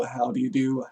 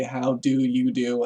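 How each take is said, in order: First: Said in the usual way. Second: How do you do drawn out slow, each word apart; slowly spelled out. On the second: Shown as a demonstration. Explaining where howdy comes from, slow and deliberate. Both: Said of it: "howdy, obviously".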